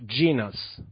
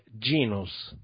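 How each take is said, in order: First: It is pronounced with English vowels and sounds. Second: It is pronounced with Italian vowels and sounds. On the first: "Gli inglesi, secondo me, lo pronuncerebbero genus" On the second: "in italiano è genus, senza nessuna I"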